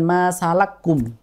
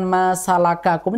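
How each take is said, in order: First: The two consonants merge into one doubled sound. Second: Both consonants are pronounced separately with their vowel. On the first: This is the reading with merging of identical letters. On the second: This is the usual reading without merging.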